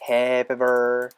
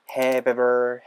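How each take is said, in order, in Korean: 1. v 소리가 다음 단어로 이어집니다. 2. v 소리가 다음 단어로 이어집니다.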